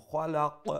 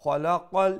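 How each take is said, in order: First: "খলাক" with the final q bounced; bouncing final qaf in "খলাক"; qalqala on stop. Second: "খলাকল" loud, heavy kh and q running on into l; emphatic full-mouthed "খলাকল"; full-mouth joined reading. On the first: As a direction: stop on "খলাক" with an echoing release of q. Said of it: "কালকালা করবো". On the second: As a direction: join "খলাকল" without bouncing the q. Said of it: "খা ফুল mouth করে উচ্চারণ করবা". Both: Shown as a demonstration.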